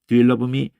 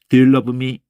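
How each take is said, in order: First: The force is put on the consonants. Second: The force is put on the consonants.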